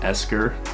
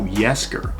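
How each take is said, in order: First: The name starts directly with a vowel sound. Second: The name starts with a 'y' sound. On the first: The speaker calls it wrong. "If, if I'm pronouncing it right, I think it's called Esker" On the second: The speaker calls it right. "Oh, Yesker, oh, okay"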